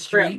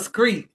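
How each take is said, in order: First: The word begins with a plain 'str' sound. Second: The word begins with a k-like 'skr' sound. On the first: The speaker calls it right. "There ain't no K in street" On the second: The speaker calls it wrong. "What's a screet?"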